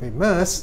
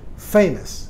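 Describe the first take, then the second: First: The stress is on the second syllable. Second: The stress is on the first syllable. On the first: The speaker calls it wrong. "bukan famous" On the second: The speaker calls it right. "suku kata pertama mendapat tekanan"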